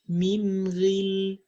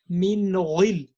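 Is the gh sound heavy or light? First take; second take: light; heavy. First: The gh sound is lighter and thinner. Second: The gh sound is heavy and full. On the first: The speaker calls it right. "you have to make it lighter" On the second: The speaker calls it wrong. "you don't say something like min ghil"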